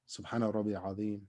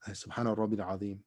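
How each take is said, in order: No difference in how they are said.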